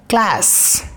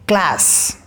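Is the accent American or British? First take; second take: American; American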